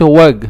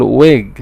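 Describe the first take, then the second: First: وج with an open a-like vowel; mispronounced short i; wrong open vowel. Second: ويج with a short i like kasra; correct short i. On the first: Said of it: "ما بقولش". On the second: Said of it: "نو، بقول". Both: Shown as a demonstration.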